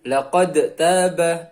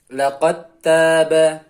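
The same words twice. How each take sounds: First: The D is sounded before the T. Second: The D is dropped into the T. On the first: The speaker calls it wrong. "jadi bukan laqad taba" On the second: The speaker calls it right. "huruf dalnya hilang langsung masuk ke huruf ta"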